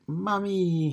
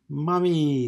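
First: Put-on very high, sweet toddler's Mommy!; a baby girl calling Mommy! in a tiny, high voice. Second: High, loud shout of Mommy!; a kid yelling Mommy! to greet her mother; excited child's cry of Mommy!, much higher and louder. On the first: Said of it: "in her sweet eighteen-month-old voice". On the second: Acted. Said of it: "Sterling cried".

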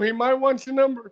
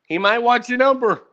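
First: Higher, sing-song tease of "He might want your number"; singsong teasing repeat; mock teasing voice. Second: Said in the usual way. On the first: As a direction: rib your friend in a playful put-on voice.

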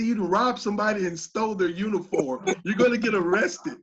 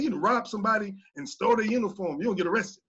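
First: Loud, comic mock accusation; playful telling-off, breaking into a laugh; joking accusation. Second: Fast, stern retold warning; raised, hurried, serious telling-off; tough. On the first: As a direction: accuse him for laughs, loudly. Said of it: "I didn't say it in a jokingly manner". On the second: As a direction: rattle off a tough, no-joke accusation. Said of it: "I actually said it pretty tough".

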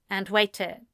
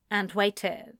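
No difference in how they are said.

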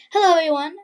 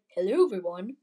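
First: Higher, much louder hello to viewers; loud fresh greeting. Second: Lightly British, lower-pitched greeting; a slightly put-on British hello; British accent. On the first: Real, not acted. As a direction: restart with a big, projected greeting. Restarts greeting in usual accent. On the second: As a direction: imitate your own slip into a British accent. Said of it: "little, uh, British accent".

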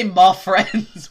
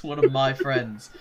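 First: High, loud, slow "my" flattened to "mah" in "my friends"; American "my friends". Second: Slow "my friends" with a full "my"; every syllable pronounced. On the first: Player showing the caught American, "my" said as "mah". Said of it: "I can't say my friends". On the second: Player mocking stuck-up British, "my" fully said as "my". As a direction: give each syllable of "One of my friends" its full sound, slowly. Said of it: "I have to say every syllable". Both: Shown as a demonstration.

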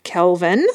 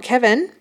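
First: "Kelvin" with a clear L, KEL-vin, rising; "Kelvin" said carefully with the L heard, KEL-vin; right name Kelvin. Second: "Kevin" said with no L, KEV-in; "Kevin", the wrong name, said as plain KEV-in. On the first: Correcting her name mix-up to listeners, "Kelvin" with a clear L. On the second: Correcting her name mix-up to listeners, "Kevin" said as KEV-in. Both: Shown as a demonstration. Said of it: "not Kevin".

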